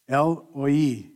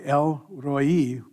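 First: The R sound is left silent in the name. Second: The R sound is pronounced in the name. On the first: The speaker calls it right. "the R is actually silent. El-Roi is how you say it" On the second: The speaker calls it wrong. "which is what I usually say"

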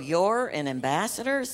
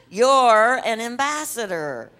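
First: The phrase is said in a flat, dull voice. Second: The phrase is said in a lively, expressive voice. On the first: The speaker calls it wrong. "Now don't go" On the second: The speaker calls it right. "Let's do the inflection"

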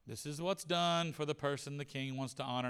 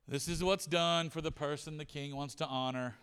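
No difference in how they are said.

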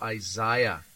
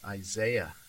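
First: The name is said the Northern Irish way. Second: The name is said the American way.

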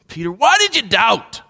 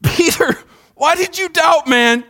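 First: It sounds angry and disgusted. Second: It sounds gently disappointed.

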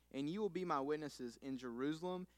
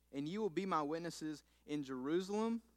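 The two takes are said the same way.

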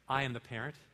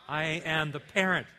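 First: It is said at normal, softer volume. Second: It is said a little louder.

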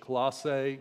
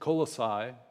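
First: The name is pronounced the English way. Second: The name is pronounced the Greek way. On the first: "maybe in the English" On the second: "In the Greek, it's Colossae"

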